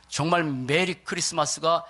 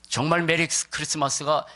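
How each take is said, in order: Both takes have the same delivery.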